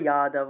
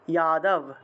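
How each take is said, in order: First: The word ends with a final vowel. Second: The word ends on a bare consonant. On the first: The speaker calls it right. "কিন্তু এক্ষেত্রে আমরা যাদব উচ্চারণ করতে হবে" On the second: The speaker calls it wrong. "যদি হসন্ত থাকতো তাহলে যাদব উচ্চারণ করতাম"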